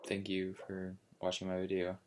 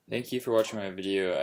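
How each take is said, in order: First: Flat, quiet, sleepy sign-off; monotone. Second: Brisk, louder sign-off; quick upbeat thanks. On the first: Real, not acted. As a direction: drone it out in a monotone. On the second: Shown as a demonstration. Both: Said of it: "Sorry for being so monotone".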